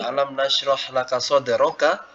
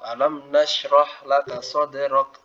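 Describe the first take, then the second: First: The last word ends with a short 'a' vowel. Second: The last word ends on a bare 'k' consonant. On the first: "Awalnya alam nasroh laka soderoka, ya berharokat fathah" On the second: "Lalu ketika wakaf, dia menjadi sakinah"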